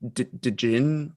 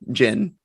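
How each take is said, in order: First: The word begins with a D sound. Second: The word begins with a J sound. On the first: The speaker calls it wrong. "I forget how to pronounce it" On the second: The speaker calls it right. "so the the D is silent"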